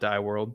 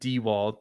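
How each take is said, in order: First: The surname is said with 'die' and an R. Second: The surname is said with 'dee' and no R. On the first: The speaker calls it wrong. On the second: The speaker calls it right.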